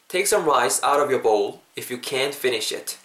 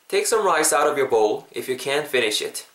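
Both takes have the same delivery.

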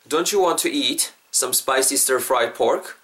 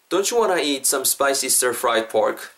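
First: It is said slowly, word by word. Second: It is said fast in one go.

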